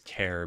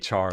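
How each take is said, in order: First: The word rhymes with care. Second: The word rhymes with car. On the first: It follows the word it abbreviates. "Some people probably say it as care because it stands for character" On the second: It follows how the spelling reads as a word. "I say char like to, to burn something"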